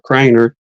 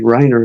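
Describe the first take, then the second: First: The word begins with a K sound. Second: The word begins without a K sound.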